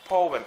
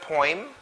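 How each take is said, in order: First: Poem as "POH-em"; correct pronunciation. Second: Poem as "poym"; wrong pronunciation. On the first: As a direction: say "Poem" in two syllables with OH. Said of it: "It should be poem". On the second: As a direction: say "poem" with an OY sound, rising. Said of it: "It's not poem". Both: Shown as a demonstration.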